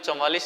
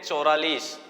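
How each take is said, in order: First: The middle consonant is a 'v' sound. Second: The middle consonant is an 'r' sound. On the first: The speaker calls it right. "ये जो चौवालीस लिखा हुआ है ना" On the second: The speaker calls it wrong. "इसको कई बोलते हैं चौरालीस, तो वो गलत है"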